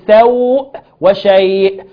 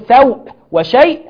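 First: The vowel before the hamza lasts two counts. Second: The vowel before the hamza gets no lengthening. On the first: "سقوط الزيادة" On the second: "سقوط المد بالكلية"

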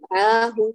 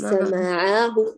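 First: The short vowels all have equal length. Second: The short vowels have unequal lengths. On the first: The speaker calls it right. "ست فتحات كلها تأخذ ذات الزمن" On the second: The speaker calls it wrong. "ليس معه"

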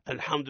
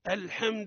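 First: The ha is exaggeratedly thick and heavy. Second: The vowel after ha drifts toward an i sound. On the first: "إما المبالغة في تفخيمه" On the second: "أنت جنحت من الفتحة نحو الكسر"

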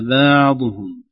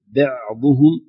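First: The ayn is too hard and tightly stopped. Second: The ayn is too soft and drawn out. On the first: "ولا شدة زائدة" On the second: "لا رخاوة زائدة"

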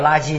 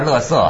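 First: The word is pronounced as la ji. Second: The word is pronounced as le se. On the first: This is the mainland reading. "我们叫垃圾" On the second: This is the Taiwan reading. "你们叫乐色"

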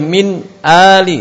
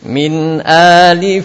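First: The two words are broken apart. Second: The two words flow together without a break. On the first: The speaker calls it wrong. "Tidak boleh min ali, tidak boleh" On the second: The speaker calls it right. "suaranya harus menyambung, tidak terputus"

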